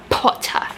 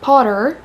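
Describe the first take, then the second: First: It is said in a British accent, strong P. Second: It is said in an American accent. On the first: "they're like Potter. They really use that P" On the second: "imagine saying that in an American accent"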